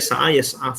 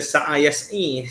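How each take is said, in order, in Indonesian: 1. Kata kedua berakhir dengan bunyi a. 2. Kata kedua berakhir dengan bunyi i. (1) "Mesti baca sa'a yas'a fa'ala yaf'alu" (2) "jangan baca sa'a yas'i. Tak boleh"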